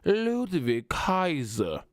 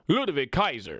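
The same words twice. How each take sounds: First: The name is said with lively flair. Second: The name is said plainly and flat. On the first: The speaker calls it right. "You got to throw a little bit of, of uh, pizzazz on the name" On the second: The speaker calls it wrong. "I don't like the way Michael Cole said that"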